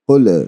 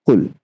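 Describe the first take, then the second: First: The final sound ends with an echoing bounce. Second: The final sound stops cleanly without a bounce. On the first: The speaker calls it wrong. "You you would never hear someone reciting like qul" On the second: The speaker calls it right. "we are not going to do the qalqala here. So we are going to stop at qul"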